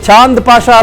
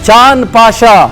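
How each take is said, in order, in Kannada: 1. ಮೊದಲ ಹೆಸರು ಹೆಚ್ಚುವರಿ 'da' ಉಚ್ಚಾಂಶದಲ್ಲಿ ಮುಗಿಯುತ್ತದೆ. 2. ಮೊದಲ ಹೆಸರು ಕೇವಲ ವ್ಯಂಜನದಲ್ಲಿ ಮುಗಿಯುತ್ತದೆ. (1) "ಚಾಂದ್ ಪಾಷಾ ಅಲ್ಲ" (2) "ದ ಇಲ್ಲ ಅಲ್ಲಿ, ಚಾಂದ್ ಅಷ್ಟೇ"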